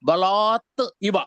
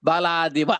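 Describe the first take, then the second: First: The two words are said separately, ending in t. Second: The two words are merged, with t becoming d. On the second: "ఈ రెండు కాస్త బలాదివ అయింది"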